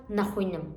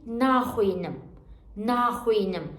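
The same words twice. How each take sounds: First: "naxwînim" with a short first A. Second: "naxwînim" with a lengthened first A; long na. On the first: Teacher showing the mistake, short "na" in "naxwînim". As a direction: rush past the "na" of "naxwînim". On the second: Teacher giving the correct form, long "na" in "naxwînim". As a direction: hold the "na" in "naxwînim". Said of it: "Not "naxwînim". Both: Shown as a demonstration.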